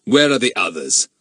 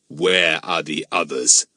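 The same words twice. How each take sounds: First: Pointed, threatening demand; menacing. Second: Slow, low, menacing demand; hissed demand. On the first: Mister Eppie questioning Jack about his friends, menacing. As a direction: demand it with a firm edge of threat. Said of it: "menacing tone that Jack was astonished and scared". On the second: Mister Eppie close to Jack's face, slow menacing demand. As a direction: draw out each word with low threat. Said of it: "hissed at him so startlingly". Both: A narrator's reading.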